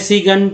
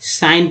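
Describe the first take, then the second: First: The g sound is pronounced before the n. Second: The g sound is silent before the n. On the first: The speaker calls it wrong. "अब जी है तो सी पढ़ते हैं, सी गन पढ़ते हैं, ऐसा तो नहीं है" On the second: The speaker calls it right. "साइन पढ़ते हैं"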